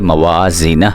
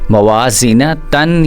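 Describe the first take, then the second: First: The word ends in a silent h sound. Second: The word ends with a final tan syllable. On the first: The speaker calls it right. "हा के साथ साकिन कर देना" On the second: The speaker calls it wrong. "ता दो ज़बर तन ... नहीं पढ़ना"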